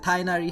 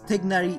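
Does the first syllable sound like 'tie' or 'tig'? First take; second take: tie; tig. First: The first syllable sounds like 'tie'. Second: The first syllable sounds like 'tig'. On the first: The speaker calls it wrong. "they messed it up. So they said Tainari" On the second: The speaker calls it right. "it should be Tignari because Tignari is actually made of two different words. That means Tig and Nari"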